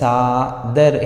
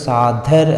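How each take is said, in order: First: The d sound is plain, without breath. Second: The d sound is aspirated, with breath. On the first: The speaker calls it right. "ಸಾದರ್ ಹೇಳೋ ಬದಲು" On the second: The speaker calls it wrong. "ಸಾಧರ್ ಅಂದರೆ ಸಾಧ ಮಹಾಪ್ರಾಣ"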